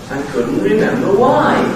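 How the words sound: The pitch rises in two stepped waves. "two waves of sound going up"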